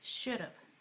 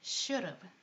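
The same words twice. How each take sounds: The two takes are said the same way.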